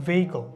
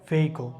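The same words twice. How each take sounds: Both takes have the same delivery.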